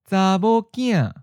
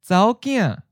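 First: Every syllable of the phrase is said in full. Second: The phrase is contracted with the ninth tone. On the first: "We'll give you the full word" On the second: "then pause before giving you the contracted version"

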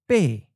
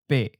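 First: The syllable falls from a high pitch. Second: The syllable is mid pitch and cut short. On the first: "the eighth tone is often of a high falling tone"

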